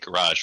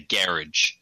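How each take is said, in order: First: It is said in a non-New Zealand way. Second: It is said the New Zealand way. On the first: "we generally don't say" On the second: "we say"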